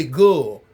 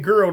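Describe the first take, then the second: First: "gull" said with the R dropped, like gull; "gull" rhymes with dull, no R at all; Southern gull. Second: Said in the usual way. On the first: Shown as a demonstration. Explaining how Southerners say girl, "gull" with no R. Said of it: "instead of saying girl, they say gull". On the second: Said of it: "instead of saying girl".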